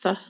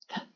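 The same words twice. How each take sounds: First: The th sound is voiced, with vocal buzz. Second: The th sound is voiceless, without vocal buzz. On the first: "the voiced sounds" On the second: "those are the voiceless sounds"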